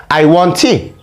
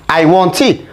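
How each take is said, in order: The two takes are said the same way.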